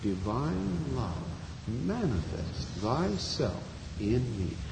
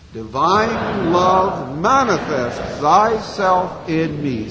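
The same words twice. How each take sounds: First: It is said very softly. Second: It is said at normal volume.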